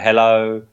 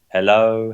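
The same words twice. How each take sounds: First: The word is said at its loudest. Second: The word is said a little more quietly. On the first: "gradually getting fainter and fainter" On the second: "gradually getting fainter and fainter"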